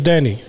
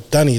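First: The name is said in a plain accent. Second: The name is said in a Filipino accent. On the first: "the nickname for Danilo is Danny" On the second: "the way you would say it in our accent is Dunny"

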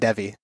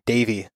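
First: The first vowel does not sound like 'ay'. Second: The first vowel sounds like 'ay'. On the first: The speaker calls it wrong. "I said your name wrong" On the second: The speaker calls it right. "the E is pronounced as an A"

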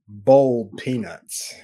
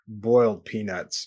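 First: The first word has an 'oh' vowel sound. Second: The first word has an 'oy' vowel sound. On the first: The speaker calls it right. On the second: The speaker calls it wrong.

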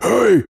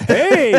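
First: A deep, strong, forceful shout. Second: A weak, thin, whimpering cry. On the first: This is the shout one hopes to give. The speaker calls it right. "You hope that it would be like a" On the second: This is the shout that actually comes out. The speaker calls it wrong. "kind of a whimper"

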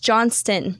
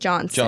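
First: The name is said with a T sound. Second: The name is said without a T sound. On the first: The speaker calls it right. "It's Johnston" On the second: The speaker calls it wrong. "not Johnston"

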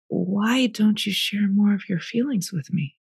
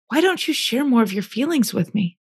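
First: It is said more softly. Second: It is said somewhat louder.

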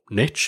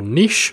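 First: It is said in an American way. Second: It is said in a non-American way.

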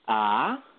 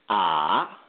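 First: The pitch rises like a question. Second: The pitch dips down and comes back up. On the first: "the second tone is a rising tone" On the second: "the third tone is a dip tone"

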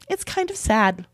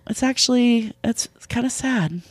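First: The voice sounds flat and unbothered. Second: The voice sounds soft and sorrowful. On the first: The person does not really feel sad. The speaker calls it wrong. "you saying it like that, not sad. You're like" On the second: The person shows some sadness, even if faked. The speaker calls it right. "just fake it. Just be like, you know"

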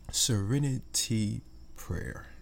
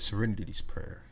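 First: The phrase is said slowly and carefully. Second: The phrase is said at a normal pace.

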